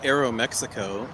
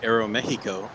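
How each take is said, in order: First: It is said with an American English pronunciation. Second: It is said with a Mexican Spanish pronunciation. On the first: "we call it Aero Mexico" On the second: "in Mexico, they're going to call it Aero Mexico"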